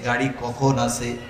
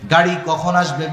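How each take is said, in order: First: The question is asked calmly, as a plain inquiry. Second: The question is asked impatiently and urgently. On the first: The asker is only seeking information before preparing. "আর একজন ticket কাটার জন্য প্রশ্ন করছে" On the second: The asker is already prepared and waiting to leave. "আপনি তো গাঠি নিয়া ready, bag নিয়া ready"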